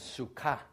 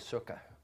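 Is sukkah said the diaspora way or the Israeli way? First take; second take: Israeli; diaspora. First: It is said with the Israeli pronunciation. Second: It is said with the diaspora pronunciation. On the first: "in Israel, the pronunciation is sukkah" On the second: "since we are in the diaspora, we can say sukkah"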